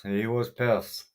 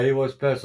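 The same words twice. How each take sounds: First: Slowed right down, each word leaned on; telling the chat again slowly so it sinks in; slow emphatic repeat. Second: Said in the usual way. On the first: Real, not acted. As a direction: drag it out to drive the point home.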